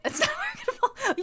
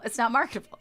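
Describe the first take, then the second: First: Words broken by a high laugh. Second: Said in the usual way. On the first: Real, not acted. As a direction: laugh through the last word. Laughing through repeated line.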